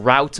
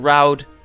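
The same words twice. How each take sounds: First: The final T sound is clearly pronounced. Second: The final T sound is barely heard. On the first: The speaker calls it right. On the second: The speaker calls it wrong.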